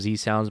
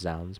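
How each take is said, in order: First: The Z is said as a separate letter. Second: It is said as one single syllable. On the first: This is the speaker's own habit. The speaker calls it wrong. "I call them Z Sounds" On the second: This is the official pronunciation. The speaker calls it right. "they're pronounced Zounds"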